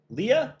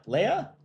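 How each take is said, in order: First: Leah said as LEE-uh, high and rising; LEE-uh pronunciation. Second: Leah said as LAY-uh, high and rising; LAY-uh pronunciation. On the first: Host unsure of an entrant's name, trying Leah as LEE-uh. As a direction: try Leah with an "ee" in the first syllable. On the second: Host offering another reading of an entrant's name, Leah as LAY-uh. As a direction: try Leah with an "ay" in the first syllable. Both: Shown as a demonstration.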